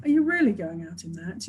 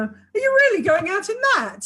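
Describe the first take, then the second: First: Low and mild, just checking; gentle inflection. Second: High, scornful, incredulous question; pitched high, sarcastic, can't believe it; disapproving inflection. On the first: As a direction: ask it kindly, with no judgement. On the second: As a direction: make it sound like a put-down. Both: Shown as a demonstration. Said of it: "a whole different communication just by the inflection".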